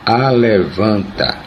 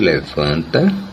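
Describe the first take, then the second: First: It uses a popular, nonstandard pronunciation. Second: It uses the standard pronunciation. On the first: "alguns dizem" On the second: "em vez de"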